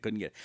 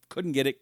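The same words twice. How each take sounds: First: Drops to a soft, resigned trail-off. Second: Said in the usual way. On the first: Real, not acted. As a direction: let it fade out in defeat. Repeats failed attempt, fading.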